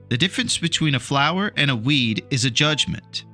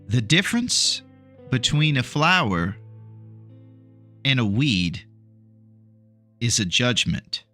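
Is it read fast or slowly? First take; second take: fast; slowly. First: It is read at a faster pace. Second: It is read at a slower pace.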